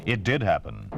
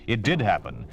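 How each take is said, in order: Both takes have the same delivery.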